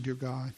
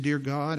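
First: Much softer, lower, barely voiced; a quiet inward prayer, drawn inward; prayed silently in the heart. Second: Said in the usual way. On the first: Boy echoing the pastor's prayer in his heart, softly. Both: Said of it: "I said, in my heart".

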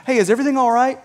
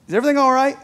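First: Higher-pitched, easy question rising at the end; lightly voiced boss checking on an employee; casual boss check-in. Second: Higher-pitched probing question after a long pause; king checking on someone he doubts, lightly acted; suspicious king. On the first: Boss coming to a worker, casual check-in. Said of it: "not the same as your boss coming to you". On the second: King to his wine taster, suspicious. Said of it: "The king sees something suspicious going on".

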